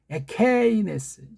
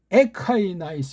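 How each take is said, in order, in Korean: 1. 가운데 모음은 그냥 'e'처럼 소리 나요. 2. 가운데 모음은 'ai'처럼 소리 나요.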